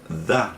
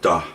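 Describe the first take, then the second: First: It starts with a soft 'th' sound. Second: It starts with a hard 'd' sound. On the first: The speaker calls it right. "we have to put the with our T H" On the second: The speaker calls it wrong. "instead of da"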